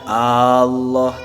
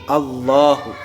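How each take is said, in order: First: The opening vowel is drawn out long. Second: The opening vowel is kept short. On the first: The speaker calls it wrong. "ulah manjangkeun si jalma hamzatal jalalati kana hamzahna lafaz Allah teu meunang" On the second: The speaker calls it right. "tapi kudu Allahu"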